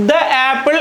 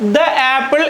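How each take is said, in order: First: The word 'the' is said as 'thuh'. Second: The same.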